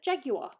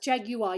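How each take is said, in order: First: The middle U sound is not pronounced. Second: The middle U sound is clearly pronounced. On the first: "That's how I learnt it" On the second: "You pronounce the U in it"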